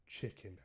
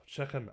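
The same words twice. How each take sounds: First: "Chicken" said tʃɪkɪn with clear i vowels, softer; correct chicken. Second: "Chicken" said tʃɛkən with an open e, lightly imitated; daughter's Scouse chicken. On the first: Shown as a demonstration. Dad showing his daughter how to say "Chicken" properly, softly. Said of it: "and I'll go". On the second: Dad imitating his daughter saying "Chicken" in light Scouse. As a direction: copy her Scouse "Chicken", chEkken. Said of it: "she'll go".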